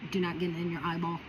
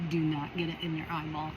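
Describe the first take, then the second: No difference in how they are said.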